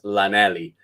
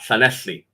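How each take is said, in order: First: It begins with an ordinary plain L sound. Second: It begins with a breathy, hissing L sound. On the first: The speaker calls it wrong. "they'll try and say it as Lanelli because they won't try the double L" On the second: The speaker calls it right. "double L you pronounce as uh"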